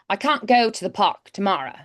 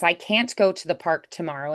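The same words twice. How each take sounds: First: It is said in a Cockney accent. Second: It is said in her usual American accent.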